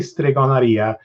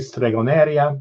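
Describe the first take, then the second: First: The word is said with Italian pronunciation. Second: The word is said with Spanish pronunciation.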